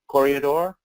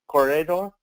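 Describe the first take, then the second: No difference in how they are said.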